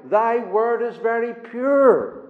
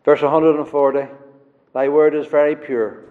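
First: "Thy word is very pure" drawn out very slowly, each word weighed; slow reading. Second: "Thy word is very pure" tossed off briskly in passing; quick mention. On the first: Preacher reading the verse to his congregation, slowly. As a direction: read "Thy word is very pure" at half speed. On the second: Preacher quickly repeating the verse to the congregation, brisk. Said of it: "I just pointed out very quickly". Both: Shown as a demonstration.

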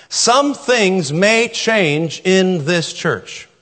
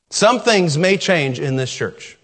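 First: Very slow, weighted on Some; slow emphasis. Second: Said in the usual way. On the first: Shown as a demonstration. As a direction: let each word land. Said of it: "slow repeated statement".

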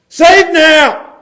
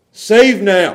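First: High, loud cry of a crowd. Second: Said in the usual way. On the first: Acted. Preacher acts crowd calling to Jesus, crying out. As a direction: call it out as a plea to the king.

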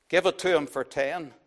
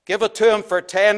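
First: Said in the usual way. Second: Louder impatient crowd call; impatient bidder calling out from the crowd. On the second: A narrator's reading. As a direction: push it through, get it over with. Crowd member urging sale.

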